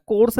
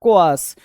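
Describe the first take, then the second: First: कोर्स said as one syllable, "kors"; wrong pronunciation. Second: कोआर्स split into two beats, "ko-aars"; right pronunciation. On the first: Teacher showing the wrong way to say कोर्स. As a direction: give the mistaken short कोर्स, "kors". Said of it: "कोर्स नहीं होता". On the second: Teacher giving students the correct कोआर्स. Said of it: "ऐसे इसका pronunciation होता है". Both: Shown as a demonstration.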